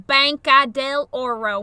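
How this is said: The name is said with flat American vowels.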